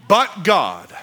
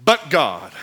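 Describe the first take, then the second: No difference in how they are said.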